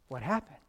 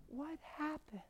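First: Said in the usual way. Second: Soft, high, frail patient voice; tiny bewildered voice, much higher and softer; imitated weak whisper. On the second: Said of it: "She's whispering, trach tube".

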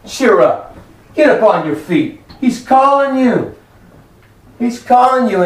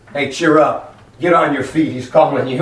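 First: Preached exhortation. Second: Low-pitched, casual relayed message; bystanders passing word. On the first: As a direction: urge the congregation up, building in pitch. Same words preached to the congregation. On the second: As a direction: tell him offhand, voice dropped. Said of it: "they said to him". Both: Acted.

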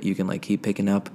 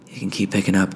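First: Said in the usual way. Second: Much louder, close-mic "keep picking up". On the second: Shown as a demonstration. Testing the mic gain, louder into it. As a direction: push the voice into the mic. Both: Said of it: "turn the gain up a little bit".

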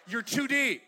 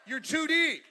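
First: Said in the usual way. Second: Emphatic repeat. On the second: Shown as a demonstration. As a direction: repeat it louder and higher.

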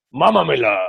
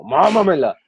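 First: Demonic whisper. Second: Hammed-up demon voice, higher and louder; demonic whisper. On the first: Retold or imitated. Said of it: "con voz diabólica". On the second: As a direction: growl it like a possessed girl. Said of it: "Así como".

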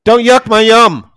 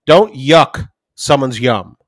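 First: High, loud, slow and emphatic; indignant kid throwing the family saying back; imitated kid's retort. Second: Said in the usual way. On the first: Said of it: "He's like". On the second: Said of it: "Jackie will tell 'em".

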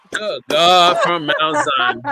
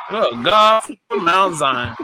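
First: Slow exclamation breaking into a laugh; drawn out, laughing through it; preacher exclamation laughing. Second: Preacher exclamation. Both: Acted. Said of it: "Hand clap her one more time".

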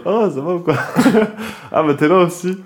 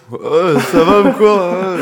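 First: Imitating a drunk greeting, laughing; mock drunk with a giggle. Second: Slow, loud mock drunk slur, higher. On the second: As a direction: drag it out like a wasted guy. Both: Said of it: "Complètement bourré".

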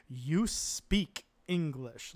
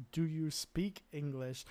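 First: "you speak English" drawn out slowly and firmly; blunt demand. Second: Said in the usual way. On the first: Retold or imitated. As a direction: turn "you speak English" into an order, hitting "speak". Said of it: "like a demand". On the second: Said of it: "Spreekt u Engels means".

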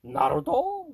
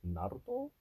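First: Naruto? jumps high and loud in disbelief; Naruto? as if it's an absurd idea; Naruto? squeaked up high, incredulous; mock disbelief. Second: Said in the usual way. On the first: Shown as a demonstration. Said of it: "echoing in mock disbelief". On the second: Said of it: "echoing daughter's suggestion".

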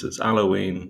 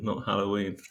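First: "Halloween" said without its H, as "'Alloween"; dropped H. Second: "Halloween" with its opening H sounded; H pronounced. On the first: Retold or imitated. Parent imitating a son, "Halloween" with the H dropped. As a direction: drop the opening H of "Halloween". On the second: Shown as a demonstration. Parent correcting the son's word, "Halloween" with the H sounded. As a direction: say the H in "Halloween", softly. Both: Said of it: "he can't say his H's".

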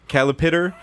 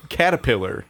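First: "calipitter" with L and T swapped; mispronounced caterpillar. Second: Said in the usual way. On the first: Retold or imitated. Friend recalling a tongue slip, "calipitter" for caterpillar. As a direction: garble it as "calipitter", pitched up. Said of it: "I kept saying cali". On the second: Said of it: "I can't say caterpillar".

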